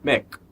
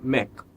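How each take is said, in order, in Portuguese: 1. Termina limpo no som final de "k". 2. Termina limpo no som final de "k".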